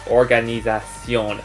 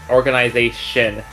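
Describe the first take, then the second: First: The word has a French pronunciation. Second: The word has an English pronunciation. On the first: "but it's organisation" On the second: "in English and French where like it has similar spelling or the exact spelling"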